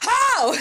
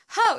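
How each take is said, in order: First: It is shouted loudly and angrily. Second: It is said quietly and calmly.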